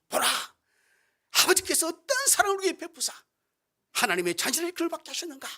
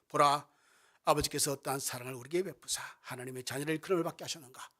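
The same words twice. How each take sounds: First: It is cried out with strong, excited emotion. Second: It is said calmly, without strong emotion.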